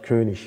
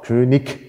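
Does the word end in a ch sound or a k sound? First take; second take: ch; k. First: The word ends in a soft ch sound. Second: The word ends in a hard k sound. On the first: This is the northern German standard. "Also norddeutsche Standarddeutsch" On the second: This is the southern German standard. "Süddeutsche Standarddeutsch, inzwischen erlaubt"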